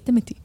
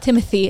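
First: The middle consonant is a plain 't' sound. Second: The middle consonant is a 'th' sound. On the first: The speaker calls it right. "It's Timothy" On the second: The speaker calls it wrong. "There's no T-H. It's not Timothy"

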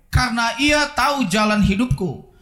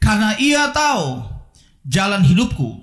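First: It is read at a normal pace. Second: It is read slowly.

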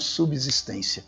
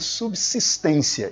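First: The s after sub sounds like a buzzing z. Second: The s after sub sounds like a hissing s. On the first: The speaker calls it wrong. "e não subsistência" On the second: The speaker calls it right. "mal está dando para minha subsistência"

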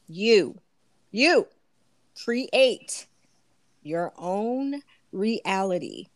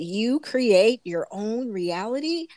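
First: It is said more slowly. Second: It is said at a normal pace.

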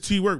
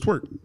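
First: The name is said as two separate parts. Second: The name is said as one single syllable. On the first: This is how the name is written. "It's T-Work" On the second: This is how people actually say the name. "They pronounce it Twerk"

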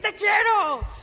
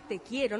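First: It is said harshly, sounding angry. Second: It is said softly and tenderly.

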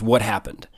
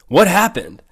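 First: It is said flatly, as a statement. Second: It is said as a puzzled question.

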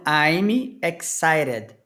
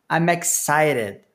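First: The M is separated from the next vowel. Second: The M runs straight into the next vowel. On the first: The speaker calls it wrong. "Reparem que eu não estou fazendo I'm excited" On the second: The speaker calls it right. "eu estou pegando esse M do I'm e já juntando no E"

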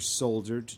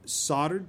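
First: It is said with a British pronunciation. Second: It is said with an American pronunciation.

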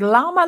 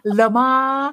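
First: Said plainly, sounding like the animal llama. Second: Said in a fancy, foreign-sounding way. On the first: "like the llama?" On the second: "we try to be fancy"

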